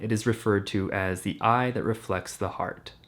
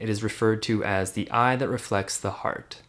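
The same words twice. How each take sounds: First: The sound is neutral with less midtone emphasis. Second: The sound is bright with stronger midtones.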